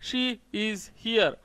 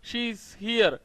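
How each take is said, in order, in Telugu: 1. She, is వేర్వేరు పదాలుగా పలుకుతాం. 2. She, is కలిసి ఒకే అక్షరంగా పలుకుతాం. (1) "షీ ఈజ్ here, షీఈ్ here ఇలా ఎలా అయినా పలకొచ్చు" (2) "షీఈ్ హియర్ అంటే షీ ఈజ్ హియర్"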